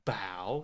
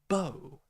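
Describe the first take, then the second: First: The vowel is a wide-open 'ow' sound. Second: The vowel is a rounded 'oh' sound. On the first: Bending the body forward. "so like ow, very wide open mouth sound" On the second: The weapon used to shoot arrows. "we would say oh, like oh my god"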